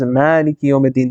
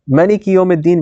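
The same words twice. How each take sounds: First: The vowel after the M is long. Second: The vowel after the M is short. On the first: "versus a long alif" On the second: "a short alif or short fatha"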